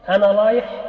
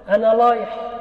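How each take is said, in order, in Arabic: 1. الراء تُنطق l. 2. الراء تُنطق l.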